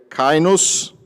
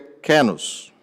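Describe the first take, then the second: First: The first syllable sounds like 'kai'. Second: The first syllable sounds like 'ke'. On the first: Some scholars pronounce it this way. "de acordo com alguns, a pronúncia seria kainos" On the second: Other scholars pronounce it this way. "ou com outros seria kenos"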